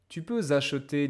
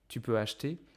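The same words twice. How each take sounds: First: A z sound links peux to acheter. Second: Peux and acheter are said without a linking z. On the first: It sounds formal and sophisticated. "then it sounds way more formal, way more chic" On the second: It sounds like normal everyday speech. "it sounds like very normal, normal day-to-day speech"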